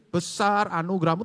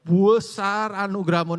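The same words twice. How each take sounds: First: The first word is said at normal length. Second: The first word is stretched out and emphasized. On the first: The grace is great. "tadi besar anugerahmu itu gampang sebenarnya" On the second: The grace is extremely great. "nah itu amat sangat besar"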